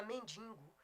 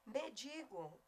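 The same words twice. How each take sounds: First: MENDIGO with an extra nasal, "men-DIN-go"; common mispronunciation. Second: MENDIGO with one nasal only, "men-DI-go"; correct pronunciation. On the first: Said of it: "a maioria fala mendigo". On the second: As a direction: say MENDIGO with a clean oral DI. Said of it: "Mesma coisa é mendigo". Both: Shown as a demonstration.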